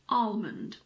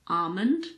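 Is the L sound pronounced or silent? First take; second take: pronounced; silent. First: The L sound is pronounced. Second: The L sound is silent. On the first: "but you can also say almond" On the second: "so I don't pronounce the L"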